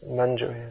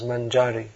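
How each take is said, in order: First: The stress is on the final syllable. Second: The stress is on the middle syllable. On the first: The speaker calls it right. "Manjari is the correct pronunciation" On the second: The speaker calls it wrong. "in English and maybe Croatian it comes out as Manjari"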